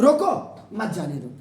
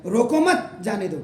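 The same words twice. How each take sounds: First: रोको stands alone, then pause before lower "मत जाने दो"; pause after रोको. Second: "रोको मत" joined, then "जाने दो"; pause after मत. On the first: Teacher demonstrating comma placement, pause after रोको. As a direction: break after रोको, run "मत जाने दो" together. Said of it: "if you are putting comma here". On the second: Teacher demonstrating the other comma placement, pause after मत. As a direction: run रोको into मत, break before "जाने दो". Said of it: "you are keeping here". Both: Shown as a demonstration.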